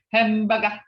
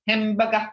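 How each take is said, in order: First: Hamburger said as hambeka, with the r dropped; mock the old-timers saying hamburger; imitating elders' hamburger. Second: Hamburger said as himbeka, through a chuckle; laughing imitation. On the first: Teacher imitating how the elders said hamburger. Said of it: "They say hamburger". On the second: Teacher laughing as she imitates the elders saying hamburger. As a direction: giggle while mocking the old hamburger. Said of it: "they put crinklish to it".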